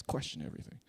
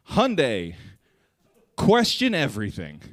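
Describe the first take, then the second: First: Whispered slogan; ominous whisper. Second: Louder, higher slogan read; mock ad slogan. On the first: Pretend. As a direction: breathe the slogan like a thriller tagline. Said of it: "somebody's checking the tire tracks". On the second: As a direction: announce it like a dramatic ad. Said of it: "and it just said".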